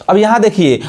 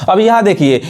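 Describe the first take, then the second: No difference in how they are said.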